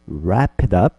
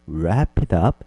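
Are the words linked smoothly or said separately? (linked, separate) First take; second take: linked; linked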